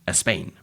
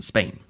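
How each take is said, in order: First: An extra vowel sound comes before the word. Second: The word begins directly with its consonant. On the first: The speaker calls it wrong. "a Spanish speaker might have said" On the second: The speaker calls it right. "instead of"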